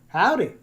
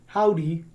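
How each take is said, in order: First: It is said in a Southern accent. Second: It is said without a regional accent.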